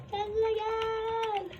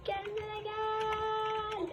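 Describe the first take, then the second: First: Slow, drawn-out, higher coaxing. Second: Very slow, soft, higher plea; very slow coaxing. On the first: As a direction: stretch it out gently to calm the monster. Coaxing monster back slowly. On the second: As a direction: drag every syllable to soothe it. Coaxing monster, slower again. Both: Acted.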